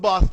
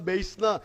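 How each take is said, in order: First: The vowel sounds like 'ah' in father. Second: The vowel sounds like 'ay' in base. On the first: The speaker calls it wrong. "നമ്മൾ ബാസ്ന വായിക്കുക, wrong pronunciation" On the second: The speaker calls it right. "BASS ഉച്ചാൻ എന്താ ബേസ്ന"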